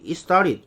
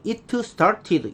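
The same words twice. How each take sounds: First: "it started" linked into "istarit"; native-speaker pronunciation. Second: "it started" syllable by syllable, "i-teu seu-tat-ti-deu"; Korean learners' reading. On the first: Teacher showing what the native says, linked and reduced. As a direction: flap the t and blur "it started" into one word. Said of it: "이러면 알아들을 수". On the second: Teacher showing how we say it, over-pronounced Korean-style English. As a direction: hit every t in "it started". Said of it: "우리는". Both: Shown as a demonstration.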